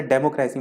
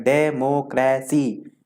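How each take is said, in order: First: Said in the usual way. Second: डेमोक्रेसी slowly in four separate syllables; डेमोक्रेसी piece by piece, each syllable drawn out. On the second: Shown as a demonstration. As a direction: chop डेमोक्रेसी into de, mo, cra, cy with gaps. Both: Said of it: "दो से ज्यादा जिसमें समय ले".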